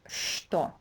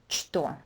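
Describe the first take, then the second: First: The word begins with an sh sound. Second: The word begins with a ch sound. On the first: The speaker calls it right. "It's always pronounced что. ... first sound would be equivalent to sh" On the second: The speaker calls it wrong. "this word is never pronounced что"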